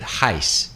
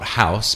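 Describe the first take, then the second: First: The vowel is shifted toward an ee-like sound. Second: The vowel is said the ordinary way. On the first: "O changes to an I" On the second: "not house"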